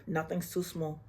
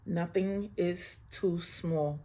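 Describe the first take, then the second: First: Said in the usual way. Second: Each word of too small laid down slowly; slow and deliberate on too small; slow, stressed too small. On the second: Shown as a demonstration. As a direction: drag out too small so it sinks in.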